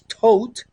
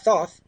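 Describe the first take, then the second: First: The name ends with a hard 't' sound. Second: The name ends with a soft 'th' sound. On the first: The speaker calls it right. "That's the way you you have to uh, pronounce it properly" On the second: The speaker calls it wrong. "It's not thoth"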